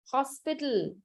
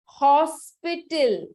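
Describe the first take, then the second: First: Said in the usual way. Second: Hospital stretched out, louder at the start; slow, emphatic presentation. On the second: Shown as a demonstration. Teacher showing class a famous word, slow and emphatic. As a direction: present Hospital slowly and firmly.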